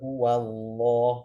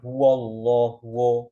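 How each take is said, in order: First: The vowel before the L is thin and clear. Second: The vowel before the L is thick and darkened. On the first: The speaker calls it right. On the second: The speaker calls it wrong.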